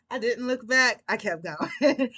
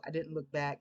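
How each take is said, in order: First: Emphatic declaration. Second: Said in the usual way. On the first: Real, not acted. Punchline retelling her quick exit.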